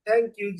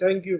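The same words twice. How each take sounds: First: It is said warmly and gently. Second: It is said curtly and carelessly. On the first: The speaker is truly grateful. The speaker calls it right. "प्यार से" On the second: The thanks feels like an insult. The speaker calls it wrong. "ऐसे ही बोल दूं ... पत्थर मारा तूने"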